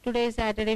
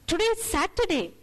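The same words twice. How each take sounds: First: It is said in a flat, uninteresting monotone. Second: It is said in an eager, bright tone. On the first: It is just a plain statement. "it's so uninteresting" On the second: The day is something to look forward to. "that inflection changes and you're looking forward to the day"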